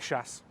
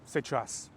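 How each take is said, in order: First: The word is squeezed into one quick syllable. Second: The word is said in full, two syllables. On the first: This is how locals say it casually. The speaker calls it right. "One syllable, quick" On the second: This is the textbook form of the word. The speaker calls it wrong. "Nobody says сейчас"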